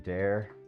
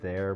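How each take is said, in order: First: The word begins with a d sound. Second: The word begins with a th sound. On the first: "we say dare" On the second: "Instead of there"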